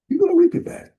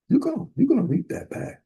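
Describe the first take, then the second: First: Much higher, louder cry of "reap"; emphatic preaching cry. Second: Said in the usual way. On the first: Real, not acted. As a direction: lift "reap" way up as a promise. Preacher repeats promise, rising.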